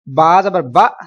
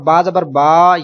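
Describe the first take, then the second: First: The final vowel is cut off with a jerk. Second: The final vowel is stretched out long. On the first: "ये झटका है" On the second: "ये लंबा करना है"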